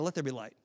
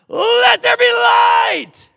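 First: It is said simply and without effort. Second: It is screamed out loudly. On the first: "did God just simply say, was it not difficult for him at all?" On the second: "did he scream it out loud?"

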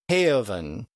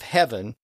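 First: The vowel is stretched into two vowel sounds. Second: The vowel is short and simple. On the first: This is how the old dialect said it. "So it's stretched out" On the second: This is the modern way of saying it. "Instead of heaven"

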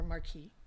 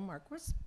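First: The name is pronounced the French way. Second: The name is pronounced the English way.

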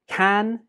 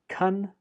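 First: The word is said with a full vowel. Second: The word is said with a reduced vowel.

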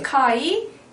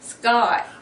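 First: The k sound after s is plain and aspirated. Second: The k sound after s is tense and unaspirated. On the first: The speaker calls it wrong. "스카이라고 하죠" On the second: The speaker calls it right. "이거를 스카이"

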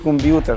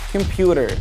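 First: The t is pronounced as a clear t. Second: The t is pronounced like a soft d. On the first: The speaker calls it wrong. "هتقول لي كمبيوتر طبعا" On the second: The speaker calls it right. "نو كمبيوتر"

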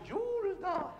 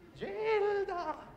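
First: The first vowel is a rounded 'iu' sound. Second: The first vowel is a plain 'i' sound.

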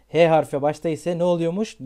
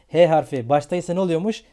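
The two takes are said the same way.

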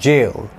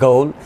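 First: It begins with a J sound, rhyming with mail. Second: It begins with a hard G, rhyming with goal. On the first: The speaker calls it right. "This one इज जेल" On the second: The speaker calls it wrong. "It इज़ not pronounced like this"

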